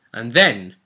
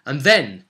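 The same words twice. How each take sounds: The two takes are said the same way.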